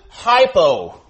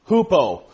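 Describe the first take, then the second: First: It is said with an English pronunciation. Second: It is said with a Greek pronunciation. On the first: "Or in English we pronounce it hypo" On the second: "The first part of that word is hupo"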